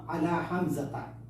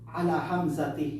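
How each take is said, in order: First: The name ends with a 'ta' sound. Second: The name ends with a 'ti' sound. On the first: The speaker calls it right. "Bagkus ang tama" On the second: The speaker calls it wrong. "Hindi pwede yun"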